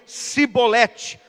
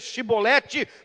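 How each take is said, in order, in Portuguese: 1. A palavra começa com som de s simples. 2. A palavra começa com som de sh. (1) "não conseguiam e diziam Sibolete" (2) "ao tentarem dizer Shibolete"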